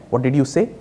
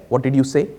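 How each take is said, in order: Both takes have the same delivery.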